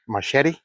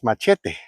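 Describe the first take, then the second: First: It is said with the local English pronunciation. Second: It is said with the original pronunciation. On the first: This is how people here say it. The speaker calls it wrong. "they call it here a machete" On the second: This is the word's true pronunciation. The speaker calls it right. "the real pronunciation is machete"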